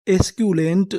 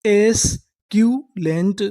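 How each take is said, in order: First: Said in the usual way. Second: एस्क्यूलेंट drawn out slowly, rising at the end; slow sounding out. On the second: Shown as a demonstration. Teacher sounding out the word for students, slow. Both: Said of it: "पूरी meaning क्या बनी?".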